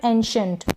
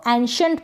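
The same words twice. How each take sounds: First: "एंशंट" opening on EN, en-shunt; closer first vowel. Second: "एंशंट" opening on an AN sound, an-shunt; open first vowel. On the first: Teacher offering second option, "एंशंट" as en-shunt. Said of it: "या फिर एंशंट". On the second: Teacher offering first option, "एंशंट" as an-shunt. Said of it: "इसको एंशंट पढ़ें या फिर एंशंट". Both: Shown as a demonstration.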